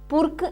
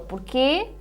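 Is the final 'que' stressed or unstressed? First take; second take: unstressed; stressed. First: The syllable que is unstressed. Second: The final syllable que is stressed. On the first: "o outro é um monossílabo átono" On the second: "este quê, é um monossílabo tónico"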